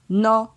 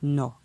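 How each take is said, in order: First: The syllable has a mid tone. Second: The syllable has a low tone. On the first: "Ton moyen" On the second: "pour un ton bas"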